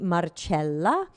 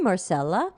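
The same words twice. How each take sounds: First: The name is said with Italian sounds. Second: The name is said with English sounds.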